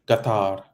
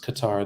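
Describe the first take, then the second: First: The name begins with a G sound. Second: The name begins with a K sound. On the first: This is how people in the country say it. "as they pronounce it in, in Qatar, Qatar, with a G" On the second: This is how people in the West say it. "like persons in the Western Hemisphere would say"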